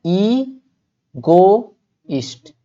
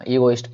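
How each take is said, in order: First: ईगोइस्ट stretched very long, ee... go... ist; syllable-by-syllable. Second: Said in the usual way. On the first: Shown as a demonstration. Teacher shows how to read it, ईगोइस्ट very slowly by syllable. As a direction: say ईगोइस्ट as three slow separate pieces. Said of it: "इसको पढ़ना क्या पढ़ेंगे हम?". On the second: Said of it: "ईगोइस्ट पढ़ेंगे।".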